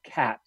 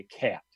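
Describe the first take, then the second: First: Said in the usual way. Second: Cat said with the vowel raised, almost kyeat; raised Chicago vowel. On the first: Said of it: "So you might say, instead of cat". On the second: Shown as a demonstration. Linguist demonstrates the northern cities shift on cat. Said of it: "So you might say, instead of cat, you might say cat".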